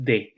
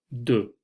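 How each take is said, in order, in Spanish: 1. La vocal es una e clara, como en español. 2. La vocal es una vocal reducida, al estilo francés. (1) "no es con e, no es de" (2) "es de. Fíjense el, cómo coloco la boca"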